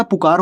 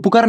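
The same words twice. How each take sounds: First: "पुकार" with a long aa, pu-kaar; correct pronunciation. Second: "पुकार" with a short second vowel, pu-kur; wrong pronunciation. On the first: Teacher giving students the real word, correct pronunciation. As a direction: open out the kaa in "पुकार". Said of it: "पुकार होता है". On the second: Teacher showing students the misreading to avoid, wrong pronunciation. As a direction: shorten the kaa in "पुकार" to a schwa. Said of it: "पुकार नहीं होता". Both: Shown as a demonstration.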